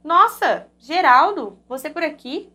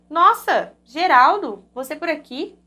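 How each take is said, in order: First: It is read with surprised emotion. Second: The same.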